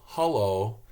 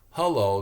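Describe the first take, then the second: First: Hello with the first vowel as a U sound; Michigan hello. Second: Hello with a clear eh vowel; English hello. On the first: Showing how Michigan people say hello, U vowel. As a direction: say hello as huh-lo. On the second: Showing the English hello, clear eh vowel. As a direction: say hello as heh-lo. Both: Shown as a demonstration. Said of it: "The eh becomes a U".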